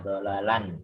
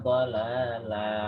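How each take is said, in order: First: The word ends with an n sound. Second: The word ends in a long a vowel. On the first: The speaker calls it wrong. "Tidak dhalalan" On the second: The speaker calls it right. "jika wakof dibaca satu"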